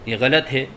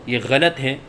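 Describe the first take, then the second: Both takes have the same delivery.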